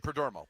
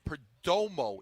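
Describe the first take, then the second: First: The name is said quickly and slurred. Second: The name is said slowly and carefully. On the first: The speaker calls it wrong. "if I speak fast, I say Perdomo" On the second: The speaker calls it right. "if I s- go slow, I can say it the right way"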